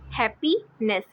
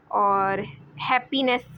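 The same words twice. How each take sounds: First: Said in the usual way. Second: happiness drawn out slowly, each syllable clear; teacher stretching happiness so students hear its parts; slow demo word. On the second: Shown as a demonstration. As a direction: spell out happiness slowly for the class.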